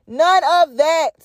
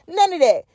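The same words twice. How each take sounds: First: None of that dragged out slowly, NONE hit hard; slowed, emphatic. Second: Said in the usual way. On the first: Real, not acted. Podcaster to her listeners, slow emphatic dismissal. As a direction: lean on every word, slowly.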